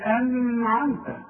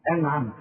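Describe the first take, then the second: First: أنعمت with the noon wrongly stretched into a long hum; sung, hold a drawn-out ghunna on the ن of أنعمت; wrong nasal hum. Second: أنعمت with a short, clear noon and no hum. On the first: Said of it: "ما أقولش". (sung, أنعمت بغنة طويلة على النون بالغلط) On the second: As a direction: say أنعمت with a crisp ن straight into the ع. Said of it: "العلامة إنها عليها سكون". (أنعمت بنون مظهرة من غير غنة) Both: Shown as a demonstration.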